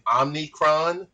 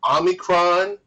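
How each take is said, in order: First: It is said with an n before the c. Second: It is said without an n before the c. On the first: This is how one particular person says it. "President Biden was saying Omnicron" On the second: This is how most people say it. "People were talking about Omicron"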